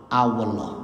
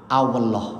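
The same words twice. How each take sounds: Both takes have the same delivery.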